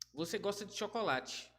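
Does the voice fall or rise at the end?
fall. It is said as a statement, falling at the end.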